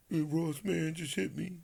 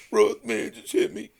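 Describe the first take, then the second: First: Lightly voiced whiny Floyd; mocking Floyd. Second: Much higher, louder whine; mocking whiny Floyd. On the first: Mocking Floyd calling Ross at three in the morning. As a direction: mimic a sulky complainer, a touch higher. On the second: Mocking how Floyd begged Ross on the phone, high whine. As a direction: ham up a crybaby plea. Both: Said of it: "that's how you talk".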